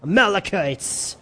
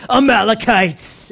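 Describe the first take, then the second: First: Said in the usual way. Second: Sinister, drawn-out villain voice; evil voice. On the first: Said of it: "Everyone say". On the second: Shown as a demonstration. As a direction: say it like a menacing villain. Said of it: "in your evil voice".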